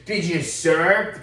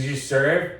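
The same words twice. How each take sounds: First: Much slower, louder, each word spaced; repeating the question to the Texan, slowly and pointedly. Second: Said in the usual way. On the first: Retold or imitated. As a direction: drag it out like a loaded challenge. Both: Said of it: "He goes".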